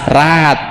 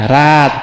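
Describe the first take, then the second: Both takes have the same delivery.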